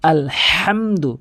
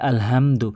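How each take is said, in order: First: The 'h' is a deep sound from mid-throat. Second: The 'h' is a plain, light breath. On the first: The speaker calls it right. "হাতি হলকের মাঝখান থেকে আলহামদু এভাবে উচ্চারণ করবেন" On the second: The speaker calls it wrong. "অধিকাংশ লোকে বলে আলহামদু"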